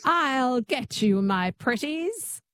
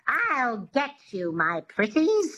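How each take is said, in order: First: Witch twang attempt. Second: Slow, higher witch voice with twang; drawn-out witchy threat; a light witch twang demo; Wicked Witch twang. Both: Shown as a demonstration. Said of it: "Just say that".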